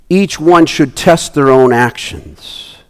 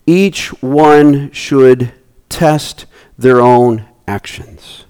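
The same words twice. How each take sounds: First: Slow reading. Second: Very slow, trailing to a whisper; slow solemn stress ending breathless; slow emphatic reading. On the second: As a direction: dwell on each word, fading out. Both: Shown as a demonstration.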